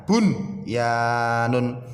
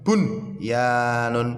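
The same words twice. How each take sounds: No difference in how they are said.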